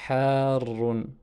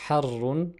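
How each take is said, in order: First: The vowel and the r are long. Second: The vowel and the r are short. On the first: It means hot. The speaker calls it right. "on a une prolongation suivie d'une shadda" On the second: It changes the meaning of the word. The speaker calls it wrong. "on ne peut pas dire harrun"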